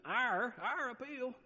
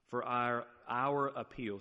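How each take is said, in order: First: Our appeal said again high and careful, without the Southern drawl; corrected, much higher. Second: A slip into a light Southern accent on appeal; Southern twang creeping into our appeal. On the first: Shown as a demonstration. Preacher corrects his Southern slip on Our appeal, much higher. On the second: Real, not acted. Preacher reading scripture, slips into a Southern accent. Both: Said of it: "sorry, there's my southern accent".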